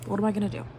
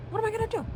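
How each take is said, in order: First: Said in the usual way. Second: Hammed-up panic, voice leaping up; mock desperate high cry; much higher despairing wail. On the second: Shown as a demonstration.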